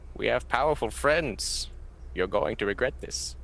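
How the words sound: It is said in a Bane impression.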